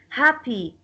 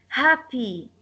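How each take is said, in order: Both takes have the same delivery.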